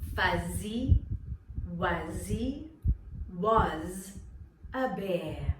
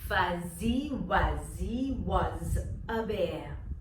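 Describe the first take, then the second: First: It is said at a normal pace. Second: It is said a little faster.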